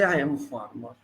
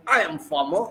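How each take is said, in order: First: Soft, low, reluctant admission; hesitant farmer imitation. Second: Mildly proud self-declaration; proud farmer imitation. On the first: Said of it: "He hesitates to say". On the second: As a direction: state the job with quiet pride, imitated. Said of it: "how proudly they say".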